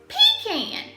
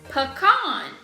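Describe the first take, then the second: First: It is said in the speaker's Georgia accent. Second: It is said the way most people say it.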